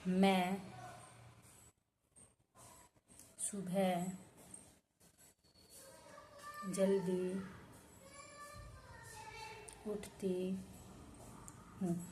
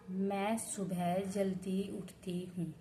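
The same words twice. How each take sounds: First: There are pauses between the words. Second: The words run together without any pauses. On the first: The closeness between the words is lost. The speaker calls it wrong. "बीच बीच में अगर मैंने ठहराव करके बोला या बीच में space दिया" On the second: The words stay close together as one sentence. The speaker calls it right. "ये है निकटता। ... ठहराव न हो"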